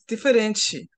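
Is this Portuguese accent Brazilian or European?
Brazilian. It is said with a Brazilian Portuguese accent. "in Brazil, it's diferente. You hear the ending?"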